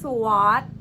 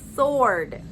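First: The w is pronounced. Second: The w is silent. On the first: The speaker calls it wrong. "ไม่ใช่" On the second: The speaker calls it right. "ตัว w จะออกเสียงว่า"

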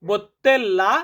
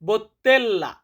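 Both takes have the same delivery.

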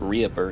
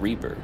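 First: The word is said as three parts, 'ree-ay-per'. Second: The word is said as two parts, 'reaper'. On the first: The speaker calls it wrong. "the software is not pronounced REAPER" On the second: The speaker calls it right. "it's Reaper"

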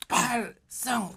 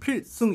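First: The first vowel is distorted into 'pal'. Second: The first syllable is said crisply as 'pil'. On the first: It is how the shouting marines actually said it. "팔승 이렇게 하던데요. 발음을 이상하게" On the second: It is the neat, by-the-book salute call. "딱 각을 맞춰가지고 그냥 필승 이렇게 하잖아요"

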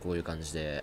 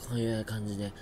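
First: The voice sounds clear and not nasal. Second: The voice sounds blocked and nasal. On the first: This is how the voice sounds after recovering. The speaker calls it right. "今は多分、こういう感じで…良くなった" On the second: This is how the voice sounded while sick. The speaker calls it wrong. "鼻声治ったんじゃないかな…昨日は、こういう感じで、喋ってた"

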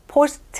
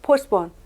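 First: The t sound in the middle is clearly pronounced. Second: The t sound in the middle is dropped. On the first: The speaker calls it wrong. "포스트 하지 마시고" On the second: The speaker calls it right. "포스폰 해보세요"

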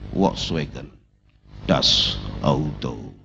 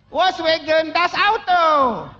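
First: It is said in a deep bass voice. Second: It is said in a thin, small voice.

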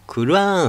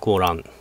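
First: It is said in three parts ending long: Qur'an. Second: It is said with a long first vowel: Koran. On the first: This is the form used today. The speaker calls it right. "クルアーンって言うんですね、今ね" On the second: This is the older form no longer used. The speaker calls it wrong. "コーランって言わないですね"

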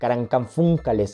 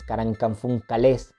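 First: The stress is on the third-to-last syllable. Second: The stress is on the final syllable. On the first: "una para que se pronuncie en forma estrújula" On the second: "la otra para que se pronuncie como aguda"

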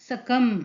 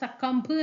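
First: The word ends on the m sound, without b. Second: The word ends with an audible b sound. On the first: The speaker calls it right. "ഈ ബി എന്നുള്ള pronunciation അങ്ങോട്ട് നമുക്ക് വരുന്നില്ല" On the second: The speaker calls it wrong. "പക്ഷെ നമ്മളത് ഉച്ചാരണത്തിൽ അങ്ങോട്ട് എന്താ സക്കംബ് എന്ന് പറയുന്നില്ല"

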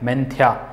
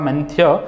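First: The word ends with a clear final 'aa' vowel. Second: The word ends without a final 'aa' vowel. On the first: The speaker calls it right. "लेकिन इसको उच्चार करना है मेंथ्या" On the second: The speaker calls it wrong. "Hindi में अगर पढ़ता है तो यह हो जाएगा मेंथ्य"

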